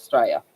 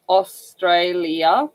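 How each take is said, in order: First: "Australia" squashed into two syllables, STRAY-a; casual short Straya. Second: "Australia" slowly, every syllable: Aus-tray-li-a; full correct syllables. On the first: Showing the everyday version, "Australia" shortened to Straya. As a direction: drop the start of "Australia", just Straya. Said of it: "otherwise it's just". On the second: Showing the anthem version, "Australia" in full syllables. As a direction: give "Australia" all four syllables, carefully separated. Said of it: "comes out in correct syllable language". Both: Shown as a demonstration.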